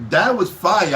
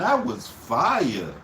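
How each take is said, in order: First: Said in the usual way. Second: Slow and soft. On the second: Shown as a demonstration.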